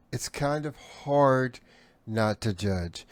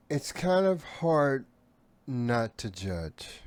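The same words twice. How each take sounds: The two takes are said the same way.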